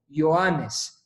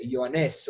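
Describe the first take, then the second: First: Ioannes with stress on the marked syllable; stress on accented syllable. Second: Ioannes with stress shifted off the marked syllable; misplaced stress. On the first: Teacher shows students how to pronounce it, stressed Ioannes. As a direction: stress Ioannes as if it had a Spanish accent mark. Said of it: "como si fuera un acento en español". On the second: Teacher contrasts the accent for students, Ioannes with shifted stress. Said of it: "en vez de Ioannes". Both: Shown as a demonstration.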